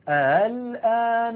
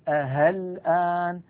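First: The hamza is softened between hamza and vowel. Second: The hamza is replaced by an h sound. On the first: The speaker calls it right. "وفي حالة التسهيل" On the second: The speaker calls it wrong. "أن يبدلها هاء"

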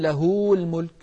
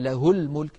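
First: The vowel after the ha is lengthened. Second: The vowel after the ha is kept short. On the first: The speaker calls it wrong. "فلا نقول" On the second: The speaker calls it right. "الهاء لا توصل مطلقا"

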